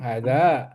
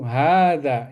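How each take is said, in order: First: The first vowel is said short. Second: The first vowel is held long. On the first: The speaker calls it wrong. "Jadi kita nggak boleh ngomong hadza, nggak boleh ya" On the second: The speaker calls it right. "Tapi kita tetap harus memanjangkan itu"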